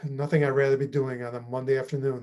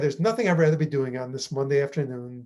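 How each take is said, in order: First: It sounds sarcastic, with reluctant pauses. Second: It sounds sincere and enthusiastic. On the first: The speaker does not enjoy what they are doing. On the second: The speaker enjoys what they are doing.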